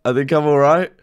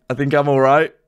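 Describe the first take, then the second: No difference in how they are said.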